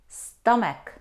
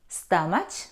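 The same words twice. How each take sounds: First: It ends with a 'k' sound. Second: It ends with a 'ch' sound as in chair. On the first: The speaker calls it right. "We don't pronounce ch, we pronounce k" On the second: The speaker calls it wrong. "No. Though we see the combination C and H, we don't pronounce ch"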